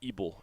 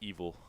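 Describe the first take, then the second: First: The middle consonant is a b sound. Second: The middle consonant is a v sound. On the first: The speaker calls it right. "That is Ebel" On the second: The speaker calls it wrong. "not evil"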